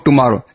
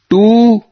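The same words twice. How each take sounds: First: The first syllable is not given strong stress. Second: The first syllable is given strong stress. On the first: It is a plain answer about the day of leaving. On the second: It hints that there is no two, only one.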